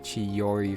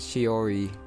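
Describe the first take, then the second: First: A y glide follows the first consonant. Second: There is no y glide after the first consonant.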